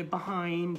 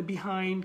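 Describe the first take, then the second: First: "behind" as ba-HAIND; other variant. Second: "behind" as bi-HAIND; one variant. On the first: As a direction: open a in the first syllable of "behind". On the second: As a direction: clear short i in the first syllable of "behind". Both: Shown as a demonstration. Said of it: "কেউ বলে behind".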